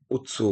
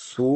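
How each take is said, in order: First: "উৎসু" with a ts sound, utsu; utsu pronunciation. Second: "সু" said slowly, as su; drawn-out syllable. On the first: Teacher giving the letter's sound, "উৎসু" as utsu. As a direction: lead into "উৎসু" with a short u before tsu. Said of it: "উৎসু বলে". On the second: Teacher naming the Japanese letter, "সু" drawn out. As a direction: stretch "সু" into a long su. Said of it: "এটাকে সু বলে". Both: Shown as a demonstration.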